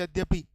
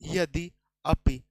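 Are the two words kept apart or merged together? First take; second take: merged; apart. First: The words run together quickly into one word. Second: The two words are kept apart, unmerged.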